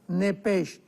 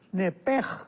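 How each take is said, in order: First: The word ends with a soft 'sh' sound. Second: The word ends with a harsh throat sound. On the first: "con ese hache al final" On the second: "la ese hache con J, entonces la pronunciación hebrea es"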